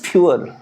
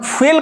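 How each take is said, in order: First: The f is followed by a 'yoo' glide. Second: The f goes straight into an 'ee' vowel. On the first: The speaker calls it right. "But this is फ्यूल" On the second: The speaker calls it wrong. "This is not फील"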